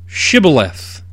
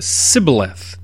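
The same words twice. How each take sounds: First: "Shibboleth" begun with a clear SH sound; correct password pronunciation. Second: "Sibboleth" begun with a plain S sound; mispronounced password. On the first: Gileadites testing a fugitive at the river, correct SH pronunciation. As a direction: say "Shibboleth" with a hushing sh at the front. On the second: Ephraimite fugitive failing the Gileadites' test, mispronounced with S. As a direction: say "Sibboleth" with s in place of sh. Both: Retold or imitated. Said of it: "he could not pronounce it right".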